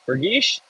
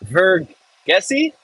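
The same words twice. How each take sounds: First: Vergiss clipped to two syllables, fer-GISH, with a light questioning rise; a quicker second try at Vergiss; corrected German attempt. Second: Vergessi said very slowly and haltingly, three syllables, rising like a question; a shaky first stab at the word Vergessi; fumbled German attempt. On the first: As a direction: fix the word to Vergiss, short and quick. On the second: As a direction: sound it out unsure, ver-GES-si with a questioning rise. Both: Shown as a demonstration. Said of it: "don't laugh at me".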